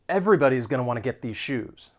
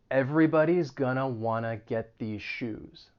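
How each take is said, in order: First: It is spoken at a normal, quick pace. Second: It is spoken slowly and deliberately.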